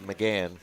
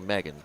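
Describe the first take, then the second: First: The name is said as McGann. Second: The name is said as Megan. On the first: This is how the lady herself says her name. "that you keep calling McGann" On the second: This is how most people would say the name. "the rest of us would say Megan"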